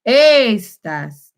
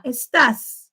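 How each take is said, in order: First: "estás" with a long, loud first e; wrongly stressed first syllable. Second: "Estás" with the stress on the final á; stress on final syllable. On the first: Teacher showing the mistake, "estás" stressed on the first syllable. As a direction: punch and stretch the "es" in "estás", letting the end drop. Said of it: "It's not". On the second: Teacher showing learners the accent, "Estás" stressed at the end. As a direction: lean on the last syllable of "Estás". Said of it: "You stress the A". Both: Shown as a demonstration.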